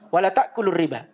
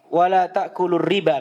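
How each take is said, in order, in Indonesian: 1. Vokal pada 'la' dibaca pendek. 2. Vokal pada 'la' dibaca panjang.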